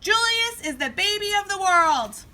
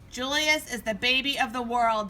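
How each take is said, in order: First: It is said loudly. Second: It is said quietly.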